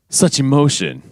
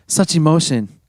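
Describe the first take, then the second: First: It is said in an overly manly, enunciated voice. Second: It is read in a plain, ordinary voice.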